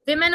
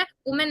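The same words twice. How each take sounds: First: "विमेन" starting wi; correct pronunciation. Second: "वुमेन" starting wu; wrong pronunciation. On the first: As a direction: say "विमेन" with a short i first vowel, wim-en. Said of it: "वुमेन नहीं है". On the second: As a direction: say "वुमेन" with a short u first vowel. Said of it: "नहीं है". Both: Shown as a demonstration.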